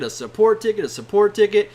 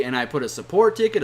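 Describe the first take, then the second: First: Each "a support ticket" louder and more insistent; fed-up, punching "a support ticket" louder; exasperated repetition. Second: Said in the usual way. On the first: Real, not acted. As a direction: hammer "a support ticket" harder each time. Repeating support ticket in frustration.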